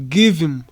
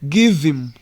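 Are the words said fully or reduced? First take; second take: reduced; reduced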